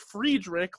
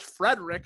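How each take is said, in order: First: The surname is said differently from the name Frederick. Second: The surname sounds exactly like the name Frederick. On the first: The speaker calls it wrong. "you're calling him Travis Friedrich" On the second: The speaker calls it right. "it's just Frederick"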